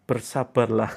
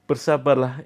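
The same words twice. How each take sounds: First: Said in the usual way. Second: Said through a laugh. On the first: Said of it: "Saya jawabannya pendek". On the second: Real, not acted. Coach repeating the short answer, laughing. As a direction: laugh at your own curt advice.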